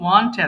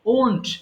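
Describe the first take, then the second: First: The vowel is an open 'ah' sound. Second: The vowel is a rounded 'oh' sound. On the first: The speaker calls it wrong. "sometimes we pronounce mistakenly want" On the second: The speaker calls it right. "it should be won't"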